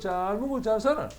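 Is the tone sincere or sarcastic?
sarcastic. It is said mockingly and sarcastically.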